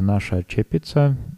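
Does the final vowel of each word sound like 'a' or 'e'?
a. Both words end in an 'a' vowel. This is the Moravian dialect form.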